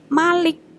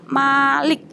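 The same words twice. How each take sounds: First: The first vowel is kept short. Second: The first vowel is held long. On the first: It means king or ruler. "kalau Malik tidak panjang" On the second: It means owner. "Ketika bacaannya panjang"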